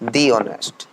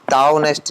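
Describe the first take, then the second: First: The word 'the' is said as 'thee'. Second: The word 'the' is said as 'thuh'. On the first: The speaker calls it right. "दी honest बोलते हैं इसे" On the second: The speaker calls it wrong. "दा honest नहीं"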